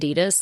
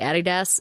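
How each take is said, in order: First: It is said the non-New Zealand way. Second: It is said the New Zealand way.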